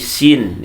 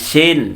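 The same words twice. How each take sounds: First: The vowel is a clear, straight i sound. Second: The vowel is slanted, drifting toward an e. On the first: The speaker calls it right. "tapi sin ya" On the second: The speaker calls it wrong. "Jangan sin"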